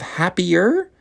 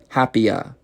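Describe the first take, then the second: First: The final R sound is pronounced. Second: The final R sound is dropped. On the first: "Instead of happier" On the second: "they don't even pronounce the R"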